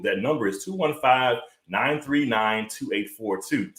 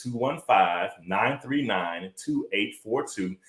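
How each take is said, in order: First: Said in the usual way. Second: Number read out slowly, softer toward the end; slow, deliberate repeat. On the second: Shown as a demonstration. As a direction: spell out each digit slowly and clearly. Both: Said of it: "Again, that number is".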